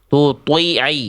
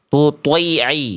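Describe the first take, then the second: No difference in how they are said.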